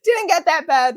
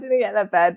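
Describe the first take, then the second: First: "Didn't" hit higher and louder; emphatic denial. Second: Said in the usual way. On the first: Real, not acted. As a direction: protest it with force on "Didn't". Protesting a teasing picture.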